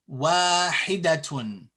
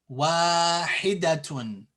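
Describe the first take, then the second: Both takes have the same delivery.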